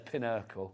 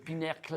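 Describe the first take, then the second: First: It is said with a plain English pronunciation. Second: It is said with a posh French-style pronunciation. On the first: The name is the ordinary English word. The speaker calls it right. "But no" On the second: The name is mistaken for a fancy foreign word. The speaker calls it wrong. "tried to make it really posh ... Like it's a French word"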